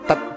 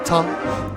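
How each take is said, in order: First: The syllable is cut off short and tight. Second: The syllable is left open and not cut off. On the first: The speaker calls it wrong. "Sounds like we're using our tongue tat" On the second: The speaker calls it right. "instead of ta"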